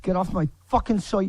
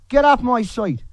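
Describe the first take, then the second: First: Said in the usual way. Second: Higher, louder barked order; furious demand to leave; angry shout. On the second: Real, not acted. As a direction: yell it to throw them out. Angry rant against critics.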